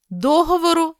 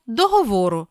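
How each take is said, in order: First: Договору as DO-hovoru; first-syllable stress. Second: Договору as doho-VO-ru; stress on VO. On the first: Teacher reading double-stress words, first-syllable stress on Договору. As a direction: stress DO in Договору, high-pitched. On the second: Teacher giving the other variant, VO stressed in договору. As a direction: stress the third syllable VO in договору. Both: Shown as a demonstration. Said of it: "слова із подвійним наголосом".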